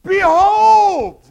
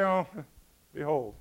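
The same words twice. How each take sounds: First: Huge high drawn-out shout; excited scream. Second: Low, offhand throwaway with a chuckle; mock indifference. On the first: Acted. John getting attention, hitting the Bible, excited screamed shout. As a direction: scream it to grab everyone's attention. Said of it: "He screams it". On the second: How John didn't announce Jesus, mock casual mumble. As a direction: say it limply, as if it hardly matters. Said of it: "John didn't say".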